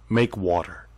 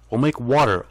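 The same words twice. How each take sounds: First: Said in the usual way. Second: "make water" thrown out louder and higher with a falling, challenging end; loud taunting demand. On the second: Shown as a demonstration.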